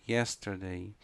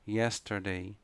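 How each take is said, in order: Both takes have the same delivery.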